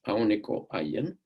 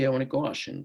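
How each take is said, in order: First: The last word has a y sound. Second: The last word has a sh sound. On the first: The speaker calls it right. "this is the name of the language" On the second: The speaker calls it wrong. "they would say Aoniko Ashin"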